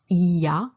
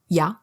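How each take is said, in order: First: It is said in full as three syllables. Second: It is squeezed into a single syllable. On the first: The speaker calls it wrong. "not il y a" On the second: The speaker calls it right. "It's always one syllable"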